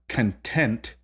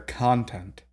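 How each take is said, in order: First: The stress is on the second syllable. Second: The stress is on the first syllable. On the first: "it is not like the word content" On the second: "but rather content"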